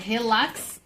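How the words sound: It is said with a Brazilian Portuguese pronunciation. "como é brasileiro, pronuncia assim"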